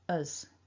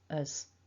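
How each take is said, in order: First: It begins directly with a vowel. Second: The same.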